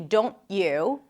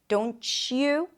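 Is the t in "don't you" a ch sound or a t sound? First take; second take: t sound; ch sound. First: The t and y stay separate. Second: The t and y merge into ch. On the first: "you can say don't you and Tuesday, totally fine" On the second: "We hear it when we combine words like can't you or don't you. Can you hear it?"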